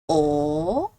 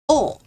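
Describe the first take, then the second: First: It is said with the second tone. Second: It is said with the fourth tone. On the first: "Second tone" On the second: "Fourth tone"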